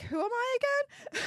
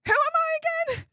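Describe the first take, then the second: First: Higher, airy mock disbelief; mock starstruck. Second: Much higher and louder, with I punched; mock starstruck, bigger. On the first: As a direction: ask it as if stunned by sudden fame. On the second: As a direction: shout the joke question again, hammed-up. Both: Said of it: "I'm like".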